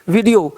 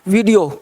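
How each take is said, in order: No difference in how they are said.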